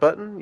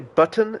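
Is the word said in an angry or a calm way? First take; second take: calm; angry. First: The word is said in a calm way. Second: The word is said in an angry way.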